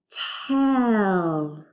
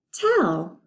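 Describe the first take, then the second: First: Slow, seamless stretch; stretched smooth blend. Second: Said in the usual way. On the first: Shown as a demonstration. Teacher modeling blending for students, slow and stretched. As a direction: stretch the word in one breath. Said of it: "Let's put that t at the beginning". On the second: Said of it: "Tell me, how old are you?".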